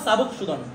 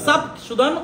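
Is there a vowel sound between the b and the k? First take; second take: Yes; No. First: A 'u' vowel is heard between b and k. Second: No vowel is heard between b and k. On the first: "সাবুকটাই বলবো" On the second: "বের উপর সাকিন দিয়ে"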